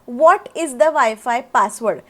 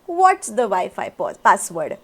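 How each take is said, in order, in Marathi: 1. ते दोन वेगळे, पूर्ण शब्द म्हणून बोलले जाते. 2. ते एक छोटा, आखूड शब्द म्हणून बोलले जाते. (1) "च्या ऐवजी" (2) "सो थोडंसं फ्लुएंट साऊंड करतं"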